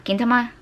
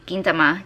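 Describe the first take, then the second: First: Gintama asked with a questioning rise; unsure pronunciation. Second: Said in the usual way. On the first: Shown as a demonstration. Vlogger unsure how to say the anime title, questioning.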